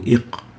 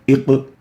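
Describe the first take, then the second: First: The q sound stops plainly without any echo. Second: The q sound is released strongly with a bounce. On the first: The speaker calls it wrong. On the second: The speaker calls it right.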